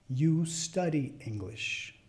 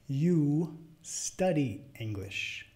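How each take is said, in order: First: It is spoken at medium speed. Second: It is spoken fairly slowly. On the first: "a la segunda vez de velocidad media" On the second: "La primera vez media lento"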